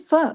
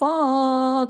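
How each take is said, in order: First: The vowel after f is short and light. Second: The vowel after f is stretched out long. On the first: The speaker calls it right. "फा जबर फ बारीक भी है और एक हरकत है" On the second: The speaker calls it wrong. "लंबा कर देंगे, आ लगा देंगे"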